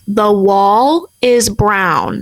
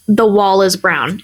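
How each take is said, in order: First: "The wall is brown." said slowly, every word spelled out; over-enunciated. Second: Said in the usual way. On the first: Retold or imitated. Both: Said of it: "like, enunciated it".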